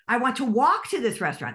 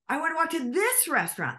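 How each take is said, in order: First: The word "walk" carries the main stress. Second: The word "this" carries the main stress. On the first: Someone else wants to drive instead. "That means that somebody else wants to drive" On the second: The choice of restaurant is in dispute. "we're arguing about which restaurant"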